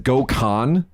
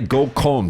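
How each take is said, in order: First: The word is said with an anglicized pronunciation. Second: The word is said with a Japanese pronunciation. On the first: It means a sexual assault. The speaker calls it wrong. "the habit to read it as Gokon. Don't do that" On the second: It means a group blind date. The speaker calls it right. "Say Gokon, please"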